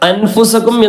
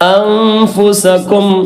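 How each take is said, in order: First: The n sound is said plainly, not hidden. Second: The n sound is hidden with light nasality. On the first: The speaker calls it wrong. "എന്ന് പറയാതെ" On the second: The speaker calls it right. "രണ്ടിന്റെയും ഇടയിൽ ആയിട്ട്"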